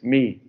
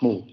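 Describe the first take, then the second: First: The vowel sounds like 'ee'. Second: The vowel sounds like 'oo'. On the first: This is how Greek speakers say it. The speaker calls it right. "the best pronunciation is me" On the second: This is the habitual pronunciation. The speaker calls it wrong. "not mu"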